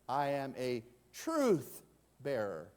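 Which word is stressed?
truth. The stress is on "truth".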